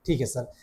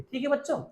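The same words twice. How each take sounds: First: Lower, mock student reply; students answering. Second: Said in the usual way. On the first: Teacher voicing the class, lower: ठीक है sir.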